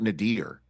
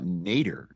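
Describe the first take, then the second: First: The last syllable sounds like 'deer'. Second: The last syllable sounds like 'der'. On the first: "not Nadir" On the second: "I say uh, Nader"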